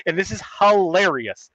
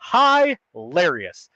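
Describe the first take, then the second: First: Said in the usual way. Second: Very slow, stretched "hilarious"; drawn out. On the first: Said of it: "repeated word, second drawn out". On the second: Real, not acted. Son mocking dad's boomer letter, "hilarious" stretched very slowly. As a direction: drag out every syllable of "hilarious". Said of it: "repeated word, drawn out".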